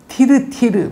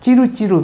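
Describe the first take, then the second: First: The name begins with a 't' sound. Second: The name begins with a 'ch' sound. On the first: This is the form in the original work. "원전에 보면은" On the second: This is the form adapted through Japanese. "일본에는 이제 티 발음이 없으니까"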